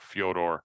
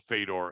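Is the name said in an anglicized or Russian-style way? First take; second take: Russian-style; anglicized. First: The name has a Russian-style native pronunciation. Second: The name has an anglicized English pronunciation.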